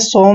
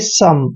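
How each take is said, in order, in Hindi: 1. यह स्वर लंबे 'o' जैसा सुनाई देता है। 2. यह स्वर छोटे 'u' जैसा सुनाई देता है। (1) "इसको हमने सोम नहीं पढ़ना है" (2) "ओ एम ई का उच्चारण अम करेंगे, यानी कि सम"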